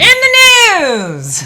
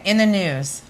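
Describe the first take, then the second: First: It is said with lively enthusiasm. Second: It is said flatly, with little energy.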